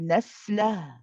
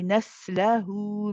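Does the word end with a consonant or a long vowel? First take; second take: consonant; long vowel. First: The word ends on a consonant, no final vowel. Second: The word ends with a vowel held two counts. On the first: The reciter stops on this word. "If we stop on the word naslah, then there, we do not pronounce this mad wow" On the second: The reciter continues to the next word. "if we are going to continue, we say naslahu min. Okay, so then it is two counts"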